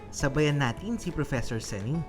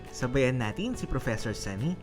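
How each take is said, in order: Both takes have the same delivery.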